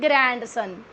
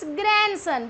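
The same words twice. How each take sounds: First: The D sound is clearly pronounced. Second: The D sound is left silent. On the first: The speaker calls it wrong. "not grandson" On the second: The speaker calls it right. "It's grandson because D is silent here"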